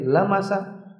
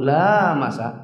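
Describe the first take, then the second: First: The first vowel is said short. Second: The first vowel is said long. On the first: It means merely touching. "Kalau dibaca pendek lamasa" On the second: It means sexual intercourse. "la-nya panjang"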